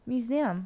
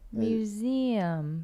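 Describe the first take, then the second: First: The word is said at normal speed. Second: The word is said slowly and drawn out.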